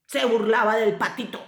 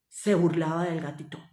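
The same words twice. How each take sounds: First: "patito" stressed to correct the word; corrective stress. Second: Said in the usual way. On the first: Real, not acted. Repeats the line correcting gatito. (corrección con énfasis en "patito")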